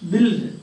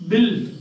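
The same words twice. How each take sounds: The two takes are said the same way.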